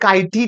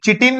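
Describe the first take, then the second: First: The word begins with a 'kai' sound. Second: The word begins with a 'chee' sound. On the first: The speaker calls it right. "ते कायटीन असतं" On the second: The speaker calls it wrong. "चिटीन नाही"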